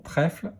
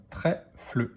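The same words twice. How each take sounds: First: Said in the usual way. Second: "trèfle" split into trè, fle; "trèfle" in two beats; syllable by syllable. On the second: Shown as a demonstration. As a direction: sound out "trèfle" with a separate fle. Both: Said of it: "dans quelle syllabe".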